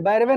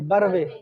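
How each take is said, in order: First: The first vowel is a long 'ai' sound. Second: The first vowel is a short 'a' sound. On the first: The speaker calls it wrong. "बैरवे नहीं" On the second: The speaker calls it right. "नहीं बरवे"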